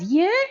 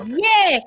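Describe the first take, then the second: First: It sounds surprised. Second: It sounds extremely excited and loud. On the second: "super excited"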